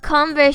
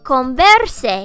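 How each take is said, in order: First: The word is pronounced the English way. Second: The word is pronounced the Spanish way. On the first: It names the shoe brand. "the name of Converse shoes" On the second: It is a command to converse. "if you pronounce it in Spanish"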